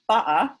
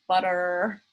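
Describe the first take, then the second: First: It is said in a London accent. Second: It is said in an American accent.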